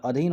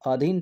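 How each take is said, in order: First: अधीन with a breathy aspirated dh, "adhin"; अधीन with the dh pushed out on a breath; अधीन महाप्राण ध के साथ, "अधीन"; correct form said. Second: अधीन said with a plain unaspirated d, "adin"; अधीन बिना महाप्राण के, "अदीन"; wrong form said. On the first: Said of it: "अधीन होता है ना". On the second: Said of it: "थोड़ी होता है". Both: Shown as a demonstration.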